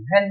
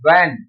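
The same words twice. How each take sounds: First: व्हेन with an "h" sounded after the v; wrong pronunciation. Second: व्हेन as "wen", with no "h" sound; corrected pronunciation. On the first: Teacher warns students off reading व्हेन so, mistaken aspirated pronunciation. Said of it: "व्हेन नहीं पढ़ते". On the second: Teacher models for students how व्हेन is read, corrected "w" pronunciation. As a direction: say व्हेन on a plain w onset. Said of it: "इसे पढ़ेंगे व्हेन". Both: Shown as a demonstration.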